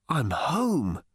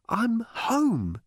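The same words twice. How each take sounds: First: Hoarse. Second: Arthur's voice. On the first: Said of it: "said Arthur hoarsely". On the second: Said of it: "he repeated". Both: A narrator's reading.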